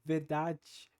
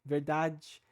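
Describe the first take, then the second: Both takes have the same delivery.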